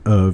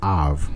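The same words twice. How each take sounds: First: It is said in a general American accent. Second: It is said in a coastal Carolina accent. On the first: "they just don't pronounce it of" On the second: "it's of"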